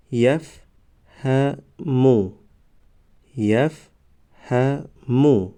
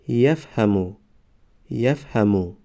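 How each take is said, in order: First: Slow, syllables held and separated; slow syllable reading. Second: Said in the usual way. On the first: Shown as a demonstration. Teacher models first readings for learners, slow syllable by syllable. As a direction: sound it out for learners, pausing between syllables. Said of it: "بار یکم و دویم آهسته". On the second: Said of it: "به مثل خوانش سوم و چهارم".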